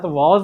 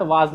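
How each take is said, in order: First: "वाज" with a rounded "aw", as vawz; correct "was". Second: "वाज" with a long open "aa"; wrong "was". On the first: Teacher correcting to the right form, "वाज" as "vawz". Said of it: "आई के साथ वाज लगता है". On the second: Teacher repeating the wrong form, "वाज" as "vaaz". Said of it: "यानी was नहीं होता है". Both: Shown as a demonstration.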